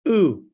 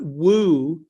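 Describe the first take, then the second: First: It starts directly with the vowel, no w. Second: It starts with a w sound before the vowel. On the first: The speaker calls it right. "that's just ooh" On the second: The speaker calls it wrong. "that's not woo"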